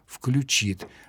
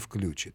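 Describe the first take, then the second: First: The stress is on the second syllable. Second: The stress is on the first syllable. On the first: This is the dictionary norm. The speaker calls it right. "словари нормативные рекомендуют говорить" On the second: This is the non-standard variant. The speaker calls it wrong. "а не"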